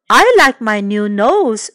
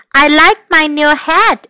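First: Oliver. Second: Lightly lifted character voice; pleased mother. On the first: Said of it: "said Oliver". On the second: Mother admires her bubble hat, lightly lifted voice. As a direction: lift the voice a little, pleased. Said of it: "she said". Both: A narrator's reading.

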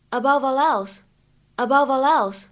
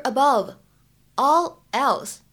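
First: "above all else" slowly in one flow, abo-va-lelse; linked sounds. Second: Said in the usual way. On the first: Shown as a demonstration. Teacher demonstrating two links for learners, linked sounds. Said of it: "我们连读之后呢". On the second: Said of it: "可以有两处连读".

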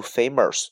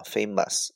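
First: "famous" said as FAY-mers, with an R; mispronounced with R. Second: "famous" said as FAY-muhs, without an R; no R sound. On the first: Teacher showing learners the mistake, "famous" with an added R. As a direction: put a wrong R sound into the ending of "famous". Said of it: "读famous是错的". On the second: Teacher correcting learners' error, "famous" as R-less FAY-muhs. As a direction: keep the ending of "famous" free of any R. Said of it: "不读儿啊". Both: Shown as a demonstration.

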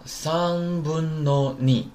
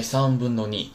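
First: Very slow, higher-pitched model reading; held syllables, teacher demonstrating the phrase; drawn out. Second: Said in the usual way. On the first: Shown as a demonstration. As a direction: stretch each syllable of 三分の二 out long.

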